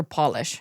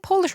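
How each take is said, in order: First: "Polish" with an open AH, PAH-lish; first vowel as in doll. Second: "Polish" with a long O, like pole; first vowel as in pole. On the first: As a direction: say "Polish" like shoe polish. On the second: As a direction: say "Polish" as the nationality, POH-lish. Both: Shown as a demonstration. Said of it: "is it Polish or Polish".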